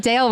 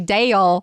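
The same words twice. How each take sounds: First: The word is said as one syllable. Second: The word is stretched into two syllables. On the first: "you don't say Dale with one syllable" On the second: "You say Dale"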